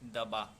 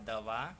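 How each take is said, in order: First: The middle consonant is a b sound. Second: The middle consonant is a v sound. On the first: The speaker calls it wrong. "व को भी बहुत लोग ब जैसा बोल देते हैं" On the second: The speaker calls it right. "लिखा दवा"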